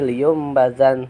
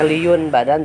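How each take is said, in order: First: The nasal before b becomes an m sound. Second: The nasal before b is a clear n sound. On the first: The ending is replaced before the next letter. "dirubah menjadi bunyi mim" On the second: This is the original unchanged form.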